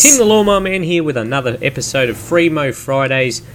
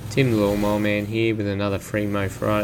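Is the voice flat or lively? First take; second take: lively; flat. First: It is said in a lively voice. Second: It is said in a flat voice.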